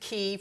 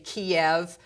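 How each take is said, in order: First: The name has its Ukrainian pronunciation. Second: The name has its Russian pronunciation. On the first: "which is the Ukrainian pronunciation" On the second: "That's Russian"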